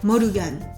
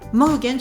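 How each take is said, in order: First: It is said with Japanese pronunciation. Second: It is said with French pronunciation. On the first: "katakanaïsé" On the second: "Morgan se transforme en"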